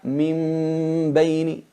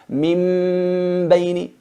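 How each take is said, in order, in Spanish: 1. La n se convierte en un sonido de m suavizado y nasalizado. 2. La n se convierte en una m completa y claramente cerrada. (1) "La transformamos en una mim, pero con gunna, con disimulación con gunna, no una mim clara" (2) "Una mim muy clara con gunna, no"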